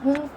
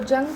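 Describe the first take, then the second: First: The name begins with an H sound. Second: The name begins with a J sound. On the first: The speaker calls it right. "हुंग प्रोनाउंस किया जाता है" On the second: The speaker calls it wrong. "इसको जंग प्रोनाउंस नहीं किया जाता"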